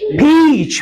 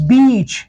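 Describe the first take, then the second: First: "पीच" with a puff of air on P, long vowel; correct aspirated P. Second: "बीच", peach with B in place of P; mispronounced peach. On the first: Teacher models correct peach, "पीच" with aspirated P. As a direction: say "पीच" high, P clearly aspirated. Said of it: "correct pronunciation is". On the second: Teacher copies non-natives' mistake, "बीच" with B for P. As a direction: say peach as "बीच", no puff of air. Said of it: "अक्सर mispronounce करते हुए". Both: Shown as a demonstration.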